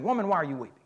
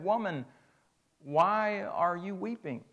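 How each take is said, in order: First: It is said harshly and sharply. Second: It is said gently and tenderly.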